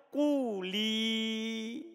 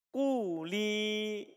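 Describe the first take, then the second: No difference in how they are said.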